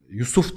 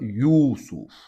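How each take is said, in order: First: The name is said with short vowels. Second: The name is said with a lengthened vowel. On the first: This is the usual Turkish form. "Yusuf diyoruz biz" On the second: This is the original Arabic form. "aslında Yusuf. Uzatma var orada"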